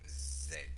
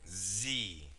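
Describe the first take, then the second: First: The letter is said as 'zed'. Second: The letter is said as 'zee'. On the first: This is the usual English way. "In English, we we usually say Z" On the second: This is the American way. "This is an American pronunciation"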